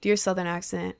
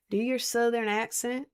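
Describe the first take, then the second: First: Said in the usual way. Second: Lightly Southern-accented echoed question. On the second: Shown as a demonstration. Streamer echoing a viewer's request, in a Southern accent. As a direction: repeat it back with a Southern twang. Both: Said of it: "I'm done with the accent now".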